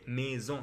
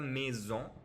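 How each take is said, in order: First: The final vowel is nasal, with no n sound. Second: The final vowel is followed by an n sound. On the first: The speaker calls it right. "c'est maison" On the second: The speaker calls it wrong. "c'est pas la maison"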